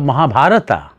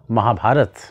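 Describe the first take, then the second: First: The word ends with a final vowel. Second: The word ends with a consonant. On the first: The speaker calls it wrong. "Instead of Mahabharata" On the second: The speaker calls it right. "say Mahabharat"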